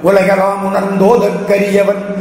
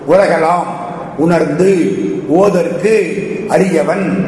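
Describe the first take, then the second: First: The words are merged into one run. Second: The words are said as separate pieces. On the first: "இப்படி சேர்த்து படிச்சீங்கன்னா" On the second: "இப்படி பிரிச்சு எழுதினீங்கன்னா"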